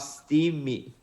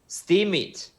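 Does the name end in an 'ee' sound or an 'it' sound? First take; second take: ee; it. First: The name ends with a long 'ee' sound. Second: The name ends with a short 'it' sound. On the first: The speaker calls it wrong. "not steamy" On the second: The speaker calls it right. "this is steam it"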